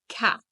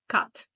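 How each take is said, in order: First: It has a standard English open vowel. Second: It has a Romanian-style vowel. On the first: "the word cat" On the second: "If I said it in my Romanian native mouth, it would sound like cat"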